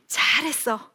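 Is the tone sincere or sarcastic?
sincere. It is said as sincere, warm praise.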